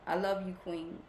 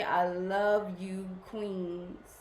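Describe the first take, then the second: First: Said in the usual way. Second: Slow, tender "I love you, queens". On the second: Real, not acted. Host telling her viewers "queens" she loves them, slow and tender. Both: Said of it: "I just keep wanting to say".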